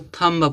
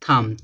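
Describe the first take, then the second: First: A b sound is pronounced at the end. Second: The word ends on m with no b. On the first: The speaker calls it wrong. "बोल उसको थम्ब पढ़ते हैं" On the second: The speaker calls it right. "बी क्या होगा silent, तो इसको क्या पढ़ा जाएगा थम"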